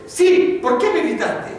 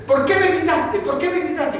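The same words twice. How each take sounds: First: Louder, higher scolding repeat; más fuerte. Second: High, sharp scolding from an imitated angry father; padre regañando. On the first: Retold or imitated. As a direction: bark it back even harder at the boy. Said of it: "le volvía a decir más fuerte". (padre repitiendo más fuerte al hijo, en voz alta y aguda) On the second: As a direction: demand an answer from the little son, stern. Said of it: "Lo tenía que levantar y le decía". (padre enojado regañando al hijo, en voz aguda)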